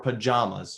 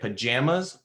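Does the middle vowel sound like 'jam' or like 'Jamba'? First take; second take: Jamba; jam. First: The middle vowel sounds like in Jamba. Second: The middle vowel sounds like in jam. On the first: "or do you say it like jama? ... Like Jamba Juice" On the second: "if you say it like jam jelly"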